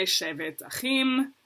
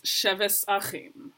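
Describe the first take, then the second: First: Said in the usual way. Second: Slow Ashkenazi "sheves achim" with an S for the tav; Ashkenazi pronunciation. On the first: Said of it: "I say". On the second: Retold or imitated. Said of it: "Shlomi says".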